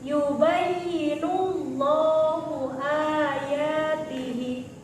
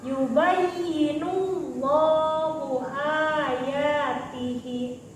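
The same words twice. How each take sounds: Both takes have the same delivery.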